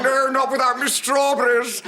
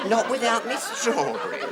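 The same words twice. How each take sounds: First: Louder quip through laughter; laughing retort; loud laugh-shout. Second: Higher, laughing repeat. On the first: Retold or imitated. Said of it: "he said". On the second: Real, not acted. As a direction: savour the absurd line. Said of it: "Completely illogical line".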